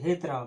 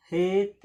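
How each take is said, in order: First: Said in the usual way. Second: "हेत" said alone, then a clear pause before "राम"; split syllables. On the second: Shown as a demonstration. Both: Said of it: "ऐसे हेतराम".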